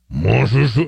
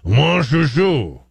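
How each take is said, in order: First: The name is said plainly, without French flair. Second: The name is said with a throaty French-style growl. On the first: "So I guess Mon Chouchou" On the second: "you got to do that kind of growl thing"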